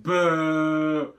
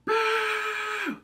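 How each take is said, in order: First: A louder, teasing boo; loud mock boo; playful boo. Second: Much higher, louder boo; high squealed boo. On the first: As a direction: jump out and spook someone. Mock-scaring after the flashback. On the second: Pretend. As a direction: squeal it like a ghost.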